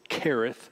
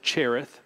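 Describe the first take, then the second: First: The name begins with a 'k' sound. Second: The name begins with a 'ch' sound. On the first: The speaker calls it right. "the correct Hebrew pronunciation is Kareth" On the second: The speaker calls it wrong. "some would pronounce it Cherith"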